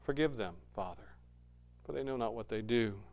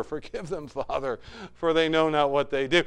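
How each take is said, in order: First: Softer, a quiet plea to the Father; hushed prayer. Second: Said in the usual way. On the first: Acted. Jesus on the cross praying for his killers, hushed. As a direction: speak it low, like a dying man praying.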